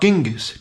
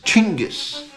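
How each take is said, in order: First: The name is pronounced as Genghis. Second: The name is pronounced as Chinggis. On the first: The speaker calls it wrong. "Not Genghis" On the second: The speaker calls it right.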